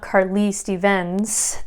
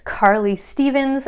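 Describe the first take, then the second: First: The stress falls on the second syllables. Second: The stress falls on the first syllables. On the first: The speaker calls it wrong. "It's not Carly Stevens, that would be incorrect" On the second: The speaker calls it right. "the accent falls on the first syllable"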